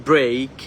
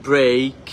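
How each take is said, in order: The two takes are said the same way.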